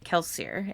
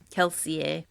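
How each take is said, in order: First: The name is pronounced in an English style. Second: The name is pronounced in a French style. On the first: "says it the English way" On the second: "The French inspired way"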